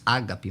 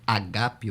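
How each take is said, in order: First: The stress is on the first syllable. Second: The stress is on the second syllable. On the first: The speaker calls it wrong. "Nós falamos ágape" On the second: The speaker calls it right. "o correto é agape, o acento é no segundo A"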